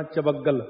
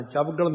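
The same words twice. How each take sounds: First: ਚਵੱਗਲ in three syllables, cha-vag-gal; ਚਵੱਗਲ as cha-VAG-gal, the corrected reading; correct pronunciation demo. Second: ਚਵਗਲ squeezed into two syllables, chav-gal; ਚਵਗਲ as the wrong reading, chab-gal; mispronunciation demo. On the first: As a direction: say ਚਵੱਗਲ with a vowel after v and a doubled g. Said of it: "ਚਵਗਲ ਨਹੀਂ ਕਹਿਣਾ". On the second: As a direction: say ਚਵਗਲ with no vowel between v and g. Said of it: "ਨਹੀਂ ਕਹਿਣਾ". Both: Shown as a demonstration.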